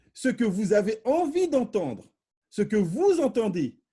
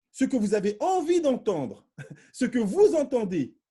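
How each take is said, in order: Both takes have the same delivery.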